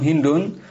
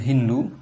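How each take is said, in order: First: The name ends with an n sound. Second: The name ends on a vowel, without n. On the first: "bisa dibaca juga tan- dengan tanwin"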